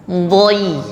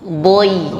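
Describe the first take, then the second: No difference in how they are said.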